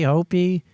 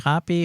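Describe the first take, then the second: First: The first syllable does not sound like 'hop'. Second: The first syllable sounds like the word 'hop'. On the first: The speaker calls it right. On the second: The speaker calls it wrong.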